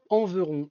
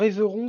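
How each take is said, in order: First: The first vowel is a nasal 'en' sound. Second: The first vowel is a plain, non-nasal 'é'. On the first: The speaker calls it right. "il y a un N, un E N" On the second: The speaker calls it wrong. "c'est pas Éveron"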